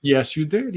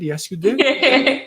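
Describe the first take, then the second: First: Said in the usual way. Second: "Yes, you did" drawn out very slowly and much higher; playful sing-song. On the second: Shown as a demonstration. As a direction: stretch "did" slowly up high like a playful tease. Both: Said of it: "Did I pronounce that right?".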